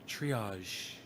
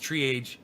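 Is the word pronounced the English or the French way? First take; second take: French; English. First: It is pronounced the French way. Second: It is pronounced the English way. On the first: The speaker calls it right. "I got to teach him the French" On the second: The speaker calls it wrong. "He still doesn't know how to say triage. He says triage"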